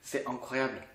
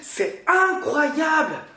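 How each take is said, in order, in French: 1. Elle est prononcée de façon monocorde, sans enthousiasme. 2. Elle est prononcée avec une énergie vive et enthousiaste. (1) "vous dites pas comme c'est dingue, c'est incroyable" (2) "Non, vous dites pas comme ça"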